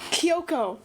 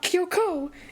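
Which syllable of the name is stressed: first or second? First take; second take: first; second. First: The stress is on the first syllable. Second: The stress is on the second syllable. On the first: The speaker calls it right. "You put the enunciation on the first" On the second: The speaker calls it wrong. "not the second one"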